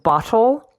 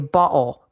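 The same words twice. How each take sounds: First: The middle T is pronounced as a clear T. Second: The middle T is replaced by a glottal stop.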